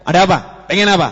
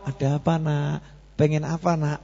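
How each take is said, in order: First: Put-on louder, snapping at the child; curt parent. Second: Put-on soft, tender asking of a child; gentle parent. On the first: Impatient parent snapping at child, mock harsh. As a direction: bark the question impatiently. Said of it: "orang tuanya". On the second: Gentle parent asking child what he wants, soft and tender. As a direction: coax the child softly. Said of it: "orang tuanya ngomong".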